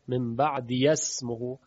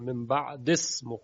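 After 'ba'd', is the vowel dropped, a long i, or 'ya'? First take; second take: ya; dropped. First: A 'ya' syllable is said before 'smihi'. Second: The vowel after 'ba'd' is dropped entirely. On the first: "به یا حرکت فتحه میدن تا حذف نشه" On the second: "پس یا رو حذف میکنه"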